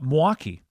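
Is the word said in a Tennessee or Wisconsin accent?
Wisconsin. It is said with a Milwaukee accent, syllables slurred.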